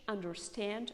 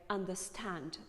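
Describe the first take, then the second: First: It is said in an American accent. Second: It is said in a British accent.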